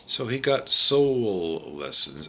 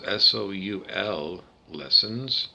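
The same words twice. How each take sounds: First: Said in the usual way. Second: "S O U L" spelled letter by letter, slowly. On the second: Shown as a demonstration. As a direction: spell out "S O U L" one letter at a time before "lessons".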